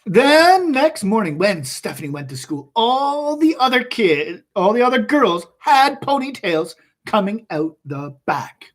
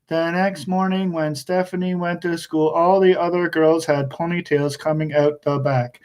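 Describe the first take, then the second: First: It starts fast, slows at the end, lively. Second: It is read flat and even, like a robot.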